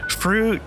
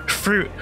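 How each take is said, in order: No difference in how they are said.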